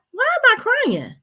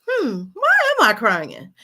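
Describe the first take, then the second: First: High self-questioning that falls at the end; high-pitched questioning. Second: Pondering self-question. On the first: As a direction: put the question to yourself in a raised voice. Models asking herself the question. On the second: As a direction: mull the question over with stress. Models pondering the same question. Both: Acted.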